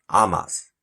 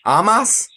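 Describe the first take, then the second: First: "Amas." said low and soft with a falling tune; settled. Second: "Amas?" asked with a rising, unsure tune; questioning. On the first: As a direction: state "Amas." flatly, falling, decided. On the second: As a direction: try "Amas?" as a guess, rising at the end. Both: Shown as a demonstration. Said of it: "how you pronounce his name?".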